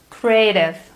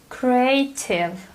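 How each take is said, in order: First: The t sounds like a soft d. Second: The t is a crisp t. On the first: "compare American to British accent" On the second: "British English sounds completely different"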